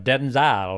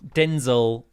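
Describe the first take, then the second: First: The name is said in a fancier-sounding way. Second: The name is said in a plain, ordinary way. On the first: It is said this way to sound more elegant. "because it sounds a bit fancier" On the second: This is the intended pronunciation. "I think, is how you meant to say it"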